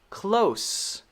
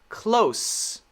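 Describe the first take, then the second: First: The word ends in an S sound. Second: The same.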